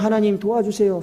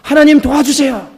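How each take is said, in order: First: It is said quietly, almost inwardly. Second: It is said aloud, crying out earnestly.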